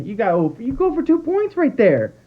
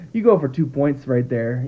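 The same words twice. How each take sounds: First: Much higher, heated repeat of the call; exasperated insistence. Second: Said in the usual way. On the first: Real, not acted. Fan frustrated at the coach insists on going for two, much higher and heated. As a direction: hammer the point home in disbelief.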